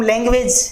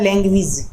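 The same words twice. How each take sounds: First: लैंग्वेज said the common wrong way; लैंग्वेज ending in /edʒ/, the wrong way; wrong pronunciation. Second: लैंग्वेज said correctly as /leŋɡwidʒ/; लैंग्वेज ending in /idʒ/; correct pronunciation. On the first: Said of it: "गलत pronounce करते हैं". (लैंग्वेज का गलत उच्चारण) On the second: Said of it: "इसका सही pronounce होता है". (लैंग्वेज का सही उच्चारण /leŋɡwidʒ/) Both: Shown as a demonstration.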